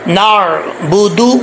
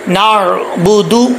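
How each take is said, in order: First: The final syllable ends in an 'oo' vowel. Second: The same.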